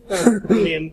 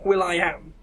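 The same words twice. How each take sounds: First: Said in the usual way. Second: [name] said as three parts, will-eye-am; [name] with a stressed middle 'eye'; [name] pronunciation. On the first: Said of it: "you're boring". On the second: Shown as a demonstration. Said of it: "As opposed to [name] Not".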